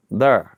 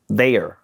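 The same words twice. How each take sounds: First: "There" said as "thurr" with an r-colored vowel; Saint Louis there. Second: "there" said as standard "thair" with a clear r; attempted standard there. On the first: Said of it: "how I say it". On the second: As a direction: try the textbook "there", "thair". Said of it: "I can't even say". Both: Shown as a demonstration.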